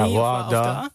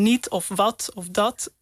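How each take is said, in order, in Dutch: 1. De laatste T-klanken vallen weg. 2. De laatste T-klanken worden duidelijk uitgesproken. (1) "In het Brabants wordt dat eerder een nie of wat of da" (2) "je spreekt aan het einde van een woord van een niet of wat of dat de T uit"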